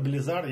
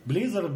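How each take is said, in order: First: "Blizzard" stressed on the last syllable, bli-ZARD; second-syllable stress. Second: "Blizzard" stressed on the first syllable, BLI-zzard. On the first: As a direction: put the weight on -ZARD in "Blizzard". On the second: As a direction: put the weight on BLI- in "Blizzard". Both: Shown as a demonstration. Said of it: "как правильно".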